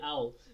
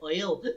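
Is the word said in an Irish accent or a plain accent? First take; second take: plain; Irish. First: The word is said in a plain accent. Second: The word is said in an Irish accent. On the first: "she doesn't say owl" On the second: "hearing her saying owl in an Irish accent"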